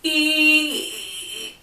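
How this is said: The vowel sounds tight and squeezed, like swallowing. "Constriction is kind of like that swallowing feeling"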